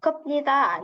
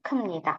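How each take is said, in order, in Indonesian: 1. Bunyi p yang jelas terdengar sebelum nida. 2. Bunyi m terdengar sebelum nida. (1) "Jadi bukan" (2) "biepnita dibacanya jadi M ya"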